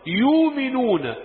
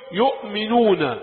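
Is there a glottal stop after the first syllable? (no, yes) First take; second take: no; yes. First: The word has no glottal stop after 'yu'. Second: The word has a glottal stop after 'yu'. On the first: This is another accepted reading of the word. "يؤمنون بدون همز في كل القرآن" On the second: This is one accepted reading of the word. "قراءة حفص إيه؟"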